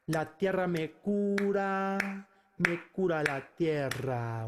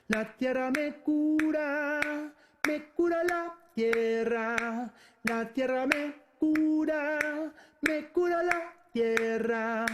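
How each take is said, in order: First: Said in the usual way. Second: Higher, sustained sung phrases; sung with melody. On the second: Shown as a demonstration. Teacher adds the tune for students, singing with melody. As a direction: sing the verse on long held notes. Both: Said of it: "With melody".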